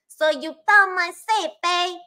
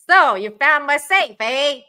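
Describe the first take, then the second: First: It is said in an Italian accent. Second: It is said in a Canadian accent.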